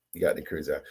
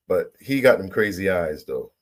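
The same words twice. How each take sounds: First: "He got them crazy eyes" dropped low and soft under the breath; quiet aside. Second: Said in the usual way. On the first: Real, not acted. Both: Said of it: "repeated as aside".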